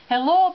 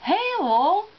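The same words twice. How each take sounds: First: Said in the usual way. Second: "hello" pitched up, first vowel stretched to "hay"; elocution-class "hello", higher and rising; posh hello demo. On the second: Shown as a demonstration. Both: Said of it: "Hello becomes".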